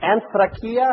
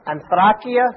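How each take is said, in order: First: Said in the usual way. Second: Anthrakia with the stress on THRA, rising at the end; misplaced word stress. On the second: Shown as a demonstration. Preacher trying out a Greek word, stress misplaced on Anthrakia's THRA. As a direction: say Anthrakia leaning on the second syllable, questioning. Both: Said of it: "got the emphasis on the wrong syllable".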